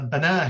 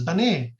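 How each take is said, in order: First: The final vowel is an open a sound. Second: The final vowel leans toward an e sound. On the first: "a word like uh, bana, he built" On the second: "is read by four of the ten canonical readers as bane"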